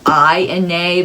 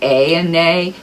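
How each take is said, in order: First: The first word rhymes with 'eye'. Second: The first word rhymes with 'day'. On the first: The speaker calls it right. "it's supposed to be I and nay" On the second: The speaker calls it wrong. "a lot of people say A and nay"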